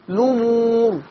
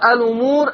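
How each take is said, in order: First: The word begins directly with the l sound. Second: The word begins with a vowel before the l. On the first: "يشيل الهمزة وابدأ بالحرف المتحرك اللي بعدها" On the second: "برضو هنطقها بهمزة الوصل"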